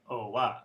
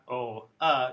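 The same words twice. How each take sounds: First: A W glide links the two vowels together. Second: The two vowels are said separately without a glide. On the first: The speaker calls it right. "A W sound is appearing there" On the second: The speaker calls it wrong. "It's not O, uh"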